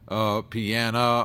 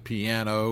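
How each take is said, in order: First: The word ends with an 'ah' sound. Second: The word ends with an 'oh' sound. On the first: The speaker calls it wrong. "it came out piana" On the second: The speaker calls it right. "instead of piano"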